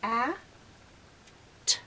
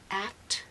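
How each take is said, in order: First: The two sounds are said slowly and separately. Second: The two sounds are blended quickly into one. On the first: "If I just say the sound they make" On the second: "and I say it faster"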